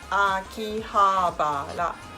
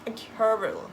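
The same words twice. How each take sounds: First: It sounds Japanese, with every syllable at one pitch. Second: It sounds English, with uneven English-like stress. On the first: The speaker calls it right. "You need to say the all letter same pitch" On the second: The speaker calls it wrong. "the sound very English"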